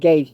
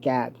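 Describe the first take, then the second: First: The name rhymes with the word 'gates'. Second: The name rhymes with the word 'cats'. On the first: This is the speaker's own pronunciation. "I pronounce it Gates" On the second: This is how some other people pronounce it. "Some pronounce it Gatz"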